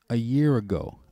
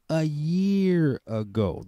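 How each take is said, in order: First: Said in the usual way. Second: A year ago stretched slowly and high; slow drawn-out emphasis. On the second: Shown as a demonstration. Woman stressing how long ago it was, slow and drawn out. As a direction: draw out "a year ago" for weight.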